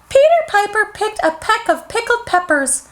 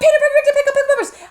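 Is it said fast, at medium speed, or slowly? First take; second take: slowly; fast. First: It is said slowly. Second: It is said very fast.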